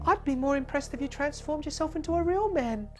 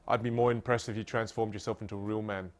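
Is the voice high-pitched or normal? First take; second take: high-pitched; normal. First: It is said in a put-on high-pitched voice. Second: It is said in the speaker's normal voice. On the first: The character is brought to life. The speaker calls it right. "I did the whole higher pitch voice" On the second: The story is merely reported. The speaker calls it wrong. "it just loses its power"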